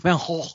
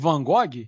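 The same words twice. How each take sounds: First: The name is said with a throaty Dutch sound. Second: The name is said in a plain, local way.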